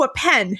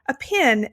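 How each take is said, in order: First: It is said with a New York accent. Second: It is said with a Southern Georgia accent.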